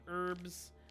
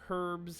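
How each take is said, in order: First: It is said with a silent h, American style. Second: It is said with a pronounced h, British style.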